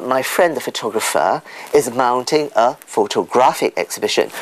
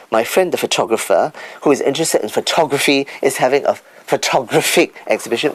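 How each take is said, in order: First: "photographic" stressed on the third syllable; correct word stress. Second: "photographic" wrongly stressed on the second syllable; wrong word stress. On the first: Speaker models right usage, "photographic" stressed on GRAPH. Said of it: "but we say photographic". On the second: Speaker mimics a common mistake, "photographic" stressed on TOG. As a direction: say "photographic" as pho-TOG-raphic. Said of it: "which is wrong again". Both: Shown as a demonstration.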